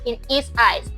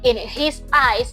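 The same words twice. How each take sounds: First: The h in 'his' is dropped. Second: The h in 'his' is clearly pronounced. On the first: The speaker calls it right. "they say ... the H is dropped" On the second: The speaker calls it wrong. "They don't say"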